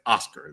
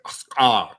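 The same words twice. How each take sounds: First: It has a plain English R. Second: It has a stretched, rolled Spanish R.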